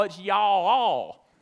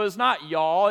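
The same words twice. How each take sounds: First: Y'all all stretched slowly into two syllables; y'all all drawled long and slow; Southern drawl. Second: Said in the usual way. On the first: Shown as a demonstration. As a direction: drag y'all all out, Alabama style. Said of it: "It becomes a two-syllable word". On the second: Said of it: "it gets stretched out again".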